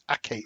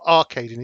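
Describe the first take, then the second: First: The first syllable sounds like a short 'a'. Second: The first syllable sounds like 'ar'. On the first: The speaker calls it right. "It's Acadian" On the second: The speaker calls it wrong. "I think I've been mispronouncing. It's not Arcadian"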